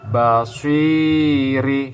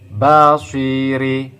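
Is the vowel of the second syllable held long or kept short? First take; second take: long; short. First: The vowel of the second syllable is held long. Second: The vowel of the second syllable is kept short. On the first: "si dibaca panjang" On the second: "ini tidak dibaca dengan panjang"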